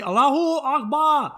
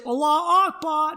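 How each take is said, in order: First: "Allahu Akbar" called high and loud with a clear "hu". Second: "Allahu Akbar" with the "hu" dropped, high and loud; "Allahu Akbar" without HU. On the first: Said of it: "Now you gotta say". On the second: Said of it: "A lot of people just say". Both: Shown as a demonstration.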